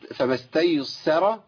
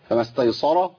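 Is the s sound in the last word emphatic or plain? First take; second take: plain; emphatic. First: The s sound is light and plain. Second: The s sound is heavy and emphatic. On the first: The speaker calls it right. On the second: The speaker calls it wrong.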